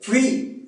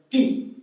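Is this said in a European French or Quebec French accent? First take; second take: European French; Quebec French. First: It is said in a France French accent. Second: It is said in a Quebec French accent.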